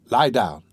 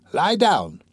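First: Said in the usual way. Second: Raised repeat. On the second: A narrator's reading. Repeats the order to the patient.

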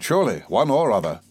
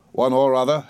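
First: Said in the usual way. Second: "One or other" turned into a question; questioning echo. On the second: A narrator's reading. Mister Wickfield challenging the doctor's answer, questioning "One or other". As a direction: query "one or other" back at him.

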